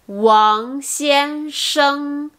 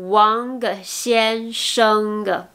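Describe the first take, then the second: First: The ng ends without a hard g sound. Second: The ng ends with an audible hard g. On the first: The speaker calls it right. "le G ne se prononce pas. Donc c'est" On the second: The speaker calls it wrong. "au lieu de"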